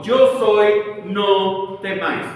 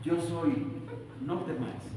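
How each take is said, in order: First: Booming, louder, slow on no temáis; thunderous voice. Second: Mock hushed movie Jesus, softer; soft film voice. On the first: Shown as a demonstration. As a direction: proclaim it like thunder over the storm. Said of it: "habló con una voz potente, como habla Dios, con una voz de trueno". (voz de trueno potente) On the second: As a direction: breathe it like a quiet film line. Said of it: "Así como en las películas". (susurro suave de película)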